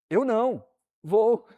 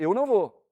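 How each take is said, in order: First: It is said with a pause after 'não'. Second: It is said without a pause after 'não'. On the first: The person is not staying home and will go. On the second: The person is not going.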